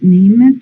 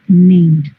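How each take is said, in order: First: The word ends without a final d sound. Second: The word ends with a final d sound. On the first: The speaker calls it wrong. "you don't pronounce name" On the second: The speaker calls it right. "you pronounce named"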